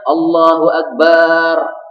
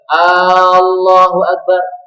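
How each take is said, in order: First: The vowel near the end is drawn out. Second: The first vowel at the beginning is drawn out. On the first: It turns the last word into a word for drum. "Yang panjang adalah bagian akhirnya" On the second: It turns the phrase into a question. "Mengucapkan Allahu Akbar itu A-nya panjang"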